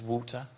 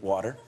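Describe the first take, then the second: First: The word is said with a British accent. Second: The word is said with an American accent.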